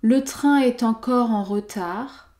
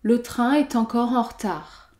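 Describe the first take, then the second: First: The first vowel of retard is pronounced. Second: The first vowel of retard is dropped.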